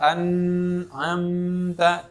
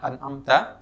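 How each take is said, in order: First: There is a long break after the n sound. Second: There is no break after the n sound. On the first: "Jangan juga terlalu panjang" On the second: "jangan an'amta"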